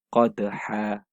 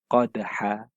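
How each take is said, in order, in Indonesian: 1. Kata ini berakhir dengan vokal yang dipanjangkan. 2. Kata ini berakhir dengan vokal yang dipanjangkan.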